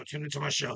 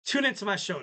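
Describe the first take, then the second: First: Lower, quieter mock demand; a little aggressive, low. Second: A little aggressive. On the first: Host presses listeners to tune in, low mock-aggressive. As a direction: drop it low as a pushy order. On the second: Pretend. Host urges listeners to tune in, mildly aggressive. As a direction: push the plug at them a bit. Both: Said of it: "that was a little aggressive".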